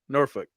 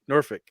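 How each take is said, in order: First: The L sound is left out. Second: The same.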